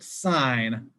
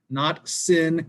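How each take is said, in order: First: The vowel is long, rhyming with 'line'. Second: The vowel is short, rhyming with 'pin'. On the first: The speaker calls it right. "It's still pronounced sine" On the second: The speaker calls it wrong.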